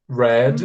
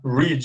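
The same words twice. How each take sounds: First: The vowel is an open 'eh' sound. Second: The vowel is a long 'ee' sound. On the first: It is the past participle form. "tem um som aberto" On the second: It is the present form, to read. "a pronúncia é com som de I"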